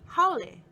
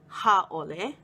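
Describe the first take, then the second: First: The word flows without a glottal break. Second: A long a and glottal break split the word. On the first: The speaker calls it right. "clearly lists the pronunciation to be haole" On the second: The speaker calls it wrong. "not ha-ole"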